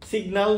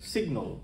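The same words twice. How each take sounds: First: The final syllable has a full vowel. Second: The final syllable is reduced and weak. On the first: The speaker calls it wrong. "সিগন্যাল নয়" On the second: The speaker calls it right. "উচ্চারণ হবে সিগন্যাল"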